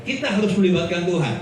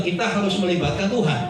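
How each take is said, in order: First: Faster, rattled-off repeat of the slogan; brisk, rattled-off echo of the slogan. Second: Said in the usual way. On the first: Shown as a demonstration. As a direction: rattle it off quickly like a well-worn saying. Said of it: "Betul nggak?". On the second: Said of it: "khotbahnya selalu bilang".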